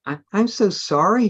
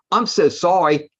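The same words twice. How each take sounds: First: High, timid apology; a shy boy apologising, voice rising. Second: Shy voice. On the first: Reading to friends, a shy vampire boy apologises timidly. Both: A narrator's reading. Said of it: "he said in a shy voice".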